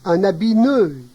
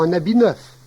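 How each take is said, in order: First: The final f of neuf is not pronounced. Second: The final f of neuf is clearly pronounced. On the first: This is the Cauchois dialect form. "parfois suppression au singulier" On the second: This is the standard French form.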